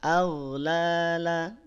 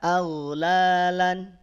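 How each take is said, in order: First: The word ends on an open vowel. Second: The word ends with an n sound. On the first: The speaker calls it right. "tapi aghlala, tanwinnya hilang" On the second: The speaker calls it wrong. "tidak aghlalan"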